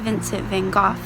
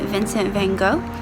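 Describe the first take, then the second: First: The name gets a native Dutch-style pronunciation. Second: The name gets a common anglicized pronunciation.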